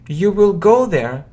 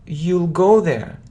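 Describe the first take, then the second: First: Will is said in full as a separate word. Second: Will is shortened and joined onto the word you.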